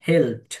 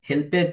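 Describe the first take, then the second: First: The ending joins the word as one syllable. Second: The ending is a separate extra syllable. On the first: The speaker calls it right. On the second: The speaker calls it wrong. "হেল্পেড না"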